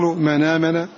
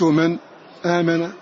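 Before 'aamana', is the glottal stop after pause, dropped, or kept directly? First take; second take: dropped; after pause. First: The glottal stop is dropped; n links to the vowel. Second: A brief stop precedes the kept glottal stop. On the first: "النقل" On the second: "السكت"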